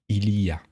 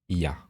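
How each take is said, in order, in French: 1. Les trois syllabes sont toutes prononcées. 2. Les mots sont collés ensemble et raccourcis. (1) "vous allez vraiment le lire ou vouloir l'entendre comme il y a" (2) "On va toujours contracter en disant il y a"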